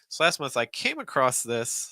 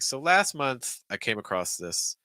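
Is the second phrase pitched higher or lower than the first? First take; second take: higher; lower. First: The pitch goes higher on the second phrase. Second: The pitch drops lower on the second phrase. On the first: "Or you go higher" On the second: "You hear that that shifts down like"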